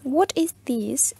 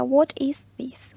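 First: Slow whispered What is this; whispered repeat. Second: Very slow What is this, spoken aloud; drawn-out teacher model, spoken aloud; slow model question. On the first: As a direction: breathe the question out slowly. (repetición lenta en susurro) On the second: (pregunta modelo lenta, en voz alta) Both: Shown as a demonstration. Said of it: "Yo les había presentado la pregunta".

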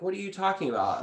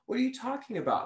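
First: The client's question, pitched high and a bit louder; mock confusion. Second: High, incredulous what-are-you-talking-about; baffled disbelief. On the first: The client asking about her changing voice, puzzled and high. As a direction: imitate someone puzzled by your voice. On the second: Retold or imitated. Retelling her own reaction to a client, baffled and pitched high. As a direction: play your own stunned confusion, pitched way up.

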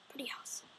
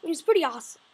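First: Breathy aside "Pretty awesome"; voiceless gleeful aside; whisper. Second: Said in the usual way. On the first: Acted. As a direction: whisper it to yourself. Said then whispered.

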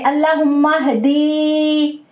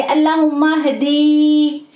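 First: हदी with the short द vowel drawn long; हदी mispronounced with a long द; wrong, stretched द. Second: हदी with the short द wrongly drawn out; हदी with a stretched short vowel; wrong, overlong द. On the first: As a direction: drag the द in हदी as if a या were added. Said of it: "अगर आप ऐसे पढ़ेंगे". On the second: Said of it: "इसको हम ऐसे नहीं पढ़ेंगे". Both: Shown as a demonstration.

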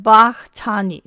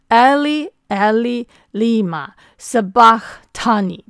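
First: Sabachthani said slowly with the H silent; dropped H. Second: Slow, full Aramaic line, a little louder; Aramaic pronunciation. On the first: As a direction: say Sabachthani without the H sound. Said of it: "你这个H就不发音了". (念Sabachthani时H不发音) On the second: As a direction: recite Eli Eli Lima Sabachthani as one phrase. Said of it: "所以连在一起念". (连起来慢慢念Eli，Eli，Lima，Sabachthani) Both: Shown as a demonstration.

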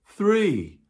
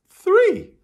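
First: High bright call of three; excited count. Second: Much higher, louder shout of three; big excited shout. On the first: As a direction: land the count with a lift. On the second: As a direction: cheer out the final count. Counting to three with children. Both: Real, not acted.

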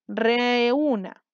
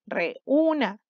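First: REÚNA drawn out in one connected run, reee-úna; teacher slowly sounding out REÚNA, vowels held; stretched syllables. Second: REÚNA split with a break, re, úna; teacher sounding out REÚNA in separate pieces; separated syllables. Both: Shown as a demonstration. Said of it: "Tres sílabas".

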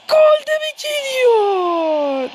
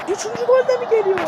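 First: Slow, high, stretched commentator call; drawn-out excited question. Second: Quick, high, rushing question; fast excited question. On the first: Gamer drawing out the third-goal question like a commentator. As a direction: stretch it out for drama. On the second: Gamer asking if a third goal comes, fast and excited. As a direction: blurt out the hope. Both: Pretend.

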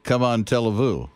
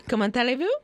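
First: "Come on, tell vous" in English words, falling; mangled French. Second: "comment allez-vous" as French, ko-mon-ta-lay-VOO, rising; French pronunciation model. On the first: Host trying to copy French, mangled as "Come on, tell vous". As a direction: botch "comment allez-vous" as American "come on, tell-a-voo". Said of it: "It sounds like you're saying". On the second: Co-host teaching French to him, "comment allez-vous" in French pronunciation. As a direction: say "comment allez-vous" smoothly linked, lifting at the end. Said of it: "say what I said".

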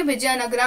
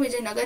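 First: "विजयनगरा" said with a long final "aa"; Vijayanagara with final a. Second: "विजयनगर" ending clipped on "gar" with no vowel after; Vijayanagar without final a. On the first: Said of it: "विजयनगरा आप कह सकते हो". ("विजयनगरा" अंत में लंबा "रा" खींचकर) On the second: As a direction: stop "विजयनगर" dead on the r. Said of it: "विजयनगर कह सकते हो". ("विजयनगर" अंत में बिना "आ" के, "गर" पर ख़त्म) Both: Shown as a demonstration.

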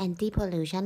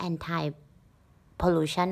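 First: Anti pronounced "AN-tee", ending in an ee sound. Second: Anti pronounced "AN-tie", ending like the word eye. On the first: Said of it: "มันอ่านว่า anti pollution หรืออ่านว่า". (อ่าน anti ว่า "แอนตี้") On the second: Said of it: "หรืออ่านว่า anti pollution วะเนี่ย". (อ่าน anti ว่า "แอนไท") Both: Shown as a demonstration.

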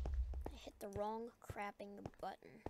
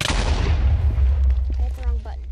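First: Said in the usual way. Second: Loud slow shout; frustrated shout. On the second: Real, not acted. Gamer yells after pressing the wrong button, loud slow shout. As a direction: yell it out at yourself, slowly.

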